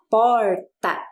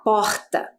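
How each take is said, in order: First: It is said in a Paraná accent. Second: It is said in a Rio de Janeiro accent. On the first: "como nós estamos aqui no Paraná, então a gente vai falar porta" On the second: "Se eu estou lá no Rio de Janeiro, por exemplo, eu ia falar porta"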